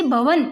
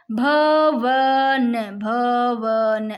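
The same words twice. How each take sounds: First: Said in the usual way. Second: "भवन" extremely slow, bha-van; sounded out. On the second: Shown as a demonstration. Teacher helping students hear av, "भवन" very drawn out. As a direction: stretch each syllable of "भवन" right out. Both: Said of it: "अव की आ रही है".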